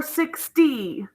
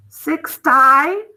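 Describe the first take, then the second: First: Six-tee, ending in a long E sound; sixty with E ending. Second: SIX-tie, ending in a long I sound; Sixty with long I. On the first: Teacher sounding out the right E-ending version. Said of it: "Sixty or sixty?". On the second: Teacher sounding out the wrong long-I version. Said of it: "or sixty?". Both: Shown as a demonstration.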